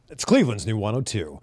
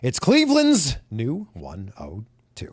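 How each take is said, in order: First: The phrase is said very quickly. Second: The phrase is said slowly and stretched out. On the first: There is only a short moment to fill. "you could say that really fast" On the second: There are several seconds to fill. "if you had like four seconds"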